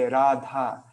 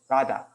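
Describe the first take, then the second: First: The vowels are drawn out long. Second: The vowels are clipped short. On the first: The speaker calls it right. "if you want to speak in prop with proper Sanskrit pronunciation, then then you would you would say Radha" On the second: The speaker calls it wrong. "you wouldn't go Radha"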